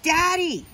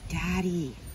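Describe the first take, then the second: First: It is said a little louder. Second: It is said very quietly.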